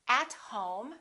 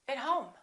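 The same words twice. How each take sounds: First: The word 'at' has a full vowel. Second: The word 'at' has a reduced vowel. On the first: The speaker calls it wrong. "We don't say at home" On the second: The speaker calls it right. "we say at"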